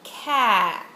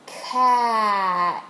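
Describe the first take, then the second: First: Said in the usual way. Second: "Cat" loud, its sounds stretched out; said slowly. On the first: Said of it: "for the word cat". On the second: Shown as a demonstration. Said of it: "watch as I push a penny".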